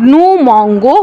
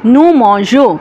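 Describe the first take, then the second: First: The consonant before the ending is hard. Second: The consonant before the ending is soft. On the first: The speaker calls it wrong. "যেটা শুনতে খারাপ শোনাতো" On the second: The speaker calls it right. "একটা এক্সট্রা ই যোগ করে এটাকে উচ্চারণ করে"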